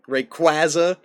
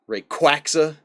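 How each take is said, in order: First: The middle sounds like the word quasar. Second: The middle sounds like the word quack.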